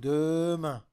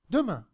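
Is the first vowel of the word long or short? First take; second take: long; short. First: The first vowel is full and drawn out. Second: The first vowel is short and light. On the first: The speaker calls it wrong. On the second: The speaker calls it right.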